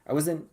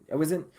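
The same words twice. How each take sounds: The two takes are said the same way.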